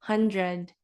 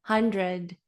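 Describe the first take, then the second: The two takes are said the same way.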